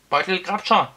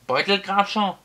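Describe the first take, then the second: First: "Beutelgrabscher" yelled high and loud; full-throated shout. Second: "Beutelgrabscher" shouted high and loud again; shouted name. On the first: A narrator's reading. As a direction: bellow the name at full voice. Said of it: "schrie der Zauberer aus vollem Hals". (aus vollem Hals geschrien) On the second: Acted. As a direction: bellow it once more. Wizard repeats name shouting. (lauthals gebrüllt)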